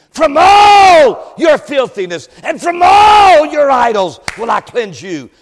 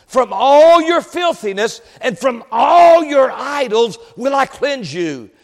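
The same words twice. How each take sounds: First: "all" held long, high and very loud; booming stress on all. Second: "all" drawn out, raised moderately; stress on all. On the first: Real, not acted. Preacher exulting in God's promise of cleansing, booming stress on "all". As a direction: belt out "all", then ease down on the close. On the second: Shown as a demonstration. Preacher reading God's promise to his people, stress on "all". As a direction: lean steadily on "all" both times. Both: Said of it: "I'm glad for that word all".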